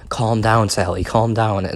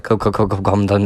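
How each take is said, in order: First: Said in the usual way. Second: Echo stutter. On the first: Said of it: "Doug is, like, going". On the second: Retold or imitated. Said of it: "it sounds like".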